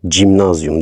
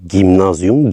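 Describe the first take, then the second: First: The word begins with a soft J sound. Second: The word begins with a hard G sound. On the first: The speaker calls it wrong. "gimnazyum değil" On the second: The speaker calls it right. "doğrusu gimnazyum"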